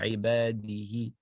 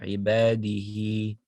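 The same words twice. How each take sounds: First: The final vowel after the ha is short. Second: The final vowel after the ha is lengthened. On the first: The speaker calls it wrong. "you don't say عباده" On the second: The speaker calls it right. "You extend the ha. It's two vowels"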